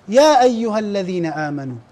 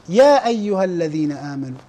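Both takes have the same delivery.

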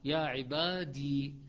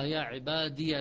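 First: The word ends with a still, vowelless 'ee' sound. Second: The word ends in 'ya', running into the next word. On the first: The reciter stops after this word. "وقف يقف عليها بالسكون" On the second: The reciter joins this word to the next. "وإذا وصلها"

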